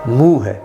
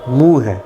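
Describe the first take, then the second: The two takes are said the same way.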